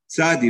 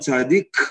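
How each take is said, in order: First: The word ends in a vowel, without k. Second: The word ends with a k sound. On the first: The speaker calls it right. "צריך לומר צדי" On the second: The speaker calls it wrong. "לא אומרים צדיק"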